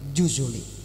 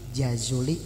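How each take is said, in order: First: The first syllable has the vowel 'u'. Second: The first syllable has the vowel 'a'. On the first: "boleh dibaca ju" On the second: "jimnya boleh dibaca ja"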